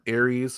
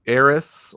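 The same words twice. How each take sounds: First: It sounds like the war god's name Ares. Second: It sounds like the Final Fantasy name Aeris. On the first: "like the God of War" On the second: "like in Final Fantasy seven"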